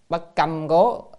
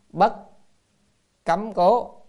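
First: The middle word has a level tone. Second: The middle word has a high rising tone. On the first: The speaker calls it right. "nhưng mà đây phải đầu âm câm" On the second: The speaker calls it wrong. "chữ câm này còn âm là cấm"

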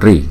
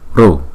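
First: The syllable ends in an 'ee' vowel. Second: The syllable ends in an 'oo' vowel. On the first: "Miền Bắc của Ấn Độ đọc là ri" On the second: "miền Nam Ấn Độ đọc là ru ru ru"

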